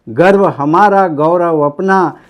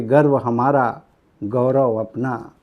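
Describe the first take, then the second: First: Loud, drawn-out opening line of a poem; poem declamation. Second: Said in the usual way. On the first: Real, not acted. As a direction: proclaim it proudly like a stage poet. Same line declaimed to start poem. (जोर से कविता पाठ)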